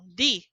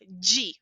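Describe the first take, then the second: First: The syllable is said another region's way. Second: The syllable is said the São Paulo way. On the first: "Existem regiões que falam di?" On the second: "em São Paulo, nós falamos di"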